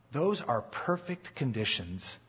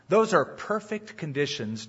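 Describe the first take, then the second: First: Quiet, slow emphasis. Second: Said in the usual way. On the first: Shown as a demonstration. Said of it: "Those are perfect conditions to be salt".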